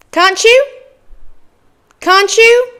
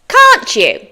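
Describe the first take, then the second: First: "Can't you?" as high, rising "cahn-choo"; native linked form. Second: "can't you?" with both words distinct, falling; careful full form. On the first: Teacher models for learners to repeat, linked form. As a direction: merge "Can't you?" with a "ch", pitched up. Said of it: "Your turn". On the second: Teacher reviews phrase number four, careful form. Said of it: "go over those common phrases again". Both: Shown as a demonstration.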